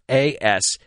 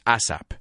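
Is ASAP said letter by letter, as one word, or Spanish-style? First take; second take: letter by letter; Spanish-style. First: Each of the four letters is said separately. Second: It is said with a Spanish pronunciation. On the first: The speaker calls it right. "or say every letter" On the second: The speaker calls it wrong. "I know in Spanish it's ASAP"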